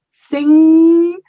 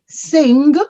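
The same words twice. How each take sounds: First: It ends in ng with no hard G. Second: A hard G sound is heard at the end. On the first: The speaker calls it right. "We say I sing, sing" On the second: The speaker calls it wrong. "you are not going to say sing"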